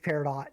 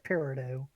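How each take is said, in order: First: The final T sound is pronounced. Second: The final T sound is silent. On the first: This is the correct pronunciation. The speaker calls it right. "You are right. It, it is Peridot" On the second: This is how the speaker always heard it. The speaker calls it wrong. "my whole life I've heard it as Peridot"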